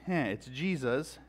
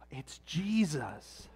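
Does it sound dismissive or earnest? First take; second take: dismissive; earnest. First: It sounds dismissive and uncaring. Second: It sounds earnest and reverent.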